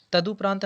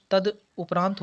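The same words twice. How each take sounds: First: तदुपरांत run together as one word; wrong joined form. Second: तद उपरांत as two separate parts; correct split form. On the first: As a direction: say तदुपरांत joined, with no break after तद. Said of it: "तदुपरांत नहीं होता". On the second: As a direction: break briefly after तद, then say उपरांत. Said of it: "तद उपरांत होता है". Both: Shown as a demonstration.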